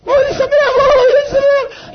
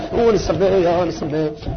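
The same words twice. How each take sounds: First: Very high, loud, crying-tinged cry of joy; wailing joy. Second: Said in the usual way. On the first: Shown as a demonstration. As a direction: shout the joy out like a wail. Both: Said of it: "לא, זה שמח".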